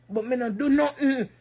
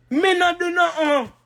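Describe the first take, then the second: First: Said in the usual way. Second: Raised, forceful repeat of the denial; emphatic denial. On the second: Real, not acted. Woman denying she wronged the girl, emphatic. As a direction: punch it out higher, protesting.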